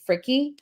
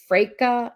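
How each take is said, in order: First: The name is said the local American way. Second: The name is said the German way. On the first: "in our town, we would pronounce it um Fricky" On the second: "if you're going with the German version"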